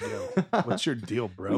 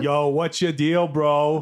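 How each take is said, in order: First: It is said in a plain, everyday accent. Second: It is said in a Boston accent.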